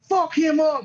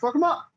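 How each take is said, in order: First: It is said in a hostile, aggressive tone. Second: It is said in a light, joking tone. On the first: It is meant personally and aggressively. "But the way he's saying, it" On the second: It is meant as friendly banter. "if you would have said it in a funny manner"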